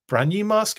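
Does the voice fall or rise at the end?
rise. It is said as a question, rising. The speaker calls it right.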